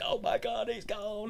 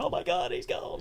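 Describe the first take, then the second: First: High, soft mock sob; imitating her tearful wail, lightly; a teasing, hammed-up little weep; mock crying. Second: Soft, breathy mock sob; a high, hushed imitation of weeping; mock breakdown. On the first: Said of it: "and she's crying". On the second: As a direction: parody her tearful breakdown. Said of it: "her having this breakdown".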